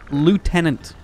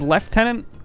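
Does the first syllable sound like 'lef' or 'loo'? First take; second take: loo; lef. First: The first syllable sounds like loo, without f. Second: The first syllable sounds like lef, with f. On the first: The speaker calls it right. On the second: The speaker calls it wrong.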